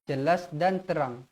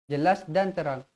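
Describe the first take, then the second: The two takes are said the same way.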